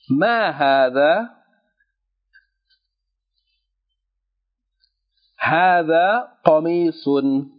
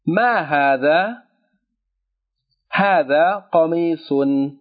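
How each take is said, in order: First: It is read at a slower, dictation pace. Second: It is read at a normal speaking pace. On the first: "I'm going to read a little bit slower so that you can write" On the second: "just for you to comprehend"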